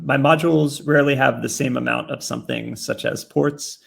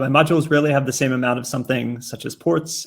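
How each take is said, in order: First: It is read at a slower pace. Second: It is read at a faster pace.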